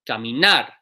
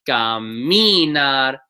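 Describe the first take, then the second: First: The stress is on the last syllable. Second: The stress is on the second-to-last syllable. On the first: The speaker calls it right. "It's the last syllable that gets the stress" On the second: The speaker calls it wrong. "by these rules should be"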